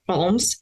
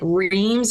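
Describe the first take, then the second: First: The name is said with a French-style vowel. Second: The name is said like English 'reams'. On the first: "hopefully, I said that right" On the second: "I said like like reams"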